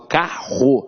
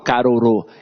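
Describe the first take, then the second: First: The two R's make one strong R sound. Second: The two R's are sounded separately. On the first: The speaker calls it right. "eu falo carro. Então esses dois R's aqui têm um som de R forte" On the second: The speaker calls it wrong. "Eu não falo carorô"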